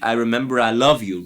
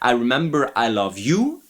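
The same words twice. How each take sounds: First: The stress is on love. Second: The stress is on you.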